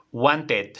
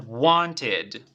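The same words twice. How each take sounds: First: "wanted" as WAN-tet, with a full E; wrong spelling pronunciation. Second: "wanted" drawn out, ending in ID; correct ID ending. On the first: Teacher shows what it will not be, mispronounced. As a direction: say "wanted" as spelt, with an E ending. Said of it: "No va a ser". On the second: Teacher gives the verb's pronunciation, ending in ID. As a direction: say "wanted" slowly as WON-tid. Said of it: "El E D va a sonar a id". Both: Shown as a demonstration.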